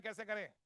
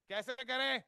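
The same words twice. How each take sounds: First: Said in the usual way. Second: Louder ask. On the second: Shown as a demonstration. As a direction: push "करें" up and out to the congregation. ("कैसे करें?" ज़ोर से दोबारा पूछें)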